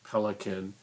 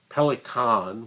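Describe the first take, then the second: First: The word is pronounced the English way. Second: The word is pronounced the German way.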